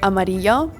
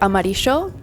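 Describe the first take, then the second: First: It is said in a general Spanish accent. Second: It is said in a Buenos Aires accent. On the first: It is how the rest of the region says it. "instead of amarillo ... Everything else says amarillo" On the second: The speaker is from the capital. "I say amarillo ... because I'm from the capital of Argentina, Buenos Aires"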